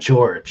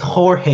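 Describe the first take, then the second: First: The name is said with English sounds. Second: The name is said with Spanish sounds. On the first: The speaker calls it wrong. "It's not George" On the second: The speaker calls it right. "it's Jorge"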